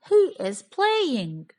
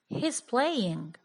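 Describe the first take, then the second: First: He and is are said as two words. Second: He and is merge into one syllable. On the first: "In the first sentence, he is playing, I have three words" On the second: "in the second sentence, he's playing, I only have two words"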